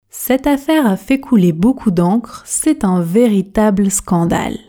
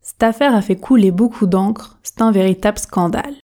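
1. La phrase est prononcée à une vitesse normale et fluide. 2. La phrase est prononcée rapidement et de façon informelle. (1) "vitesse standard maintenant. Objectif, fluidité" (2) "pratiquons la version rapide, la version express"

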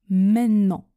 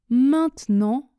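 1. Le t tombe et on allonge le n. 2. Chaque syllabe se prononce, le t compris.

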